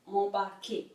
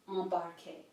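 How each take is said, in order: First: A nasal vowel is heard with no M consonant. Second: An M consonant is pronounced after the vowel. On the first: The speaker calls it right. "in French is embarquer" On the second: The speaker calls it wrong. "not embarquer"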